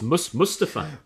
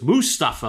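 First: The name is said without a Geordie accent. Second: The name is said with a Geordie accent. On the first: The speaker calls it right. "But no, it's Mustafa" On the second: The speaker calls it wrong. "my Geordie twang immediately just goes Mustafa like that"

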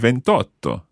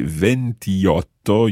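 First: The i vowel before otto is dropped. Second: The i vowel before otto is pronounced. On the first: The speaker calls it right. "you say ventotto" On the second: The speaker calls it wrong. "you don't say ventiotto"

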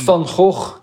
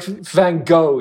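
First: It is said with a harsh, throat-clearing rasp. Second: It is said smoothly, with no throaty rasp. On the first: This is the original native way to say the name. "It sounds like clearing your throat ... that's the real way to pronounce it" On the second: This is how Americans say the name. "way in the US. It's like Van Gogh"

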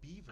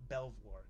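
First: It is said like the word beaver. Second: It is said as two syllables, Bel-vwar. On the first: This is how local people say it. "But you guys call it Beaver" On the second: This is how it is read from the spelling elsewhere. "it's spelled exactly the same, Belvoir"

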